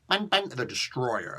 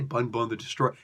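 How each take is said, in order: First: It is said in a light, playful voice. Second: It is said in a deep, heavy voice. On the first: The speaker calls it right. "You gotta have fun with it" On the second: The speaker calls it wrong. "You can't put any bass in your voice when you do that"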